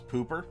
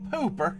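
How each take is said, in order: First: It is said in a plain accent. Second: It is said in a country twang, ending like 'eh'.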